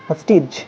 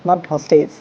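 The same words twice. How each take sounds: First: "Hostage" said with a short a and a final j sound; correct pronunciation. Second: "hostage" said with the mistaken s ending; wrong pronunciation shown. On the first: A teacher contrasting the correct word for students. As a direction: model "Hostage" the right way. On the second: A teacher showing students the common mistake. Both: Shown as a demonstration.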